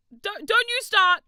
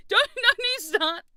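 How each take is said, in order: First: High, loud mock warning; warning chat. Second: High, slow warning breaking into laughter; can't keep a straight face while warning; laughing warning. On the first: Streamer loudly warning chat not to start. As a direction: wag a finger at them with your voice. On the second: Streamer laughing while warning chat not to start. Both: Real, not acted.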